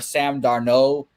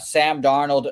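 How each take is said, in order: First: The surname is given a French-sounding ending. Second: The surname is said the plain English way.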